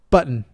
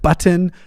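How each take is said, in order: First: The middle T sound is skipped. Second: The middle T sound is clearly pronounced. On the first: The speaker calls it wrong. "You basically just skip the T's" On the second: The speaker calls it right. "it's just the right way to say a double T"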